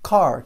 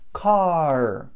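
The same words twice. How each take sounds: First: Said in the usual way. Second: "Car" with a long held final R; exaggerated drawn-out R closing "Car"; super strong R. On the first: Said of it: "Car, que é carro". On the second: Shown as a demonstration. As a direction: stretch the English R at the end of "Car". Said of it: "super forte".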